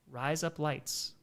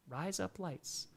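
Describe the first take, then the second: First: US accent. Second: Slow, soft Australian accent, sounding like razor blades. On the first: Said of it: "with a U S accent". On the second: Streamer tries the Australian accent for the chat. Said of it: "in an Australian accent". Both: Shown as a demonstration.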